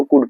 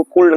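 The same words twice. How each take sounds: First: कूड said as "kood", no L; silent L. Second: कूल्ड said as "koold", L sounded; L wrongly pronounced. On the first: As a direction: say could as कूड, dropping the L. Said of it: "एल silent होगा". (कूड में L silent) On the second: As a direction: mispronounce could as कूल्ड, with a clear L. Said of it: "इसको कूल्ड नहीं पढ़ेंगे". (कूल्ड में L का गलत उच्चारण) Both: Shown as a demonstration.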